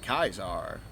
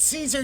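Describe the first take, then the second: First: The name is said sounding like Kaiser. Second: The name is said as in Caesar salad. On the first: The speaker calls it wrong. "everyone's calling it" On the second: The speaker calls it right. "As in like I just ordered a chicken Caesar wrap"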